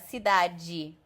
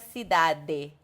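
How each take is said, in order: First: The final d sounds like a soft 'dj'. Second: The final d sounds like a plain hard d. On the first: "a gente fala cidade" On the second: "a gente não fala cidade"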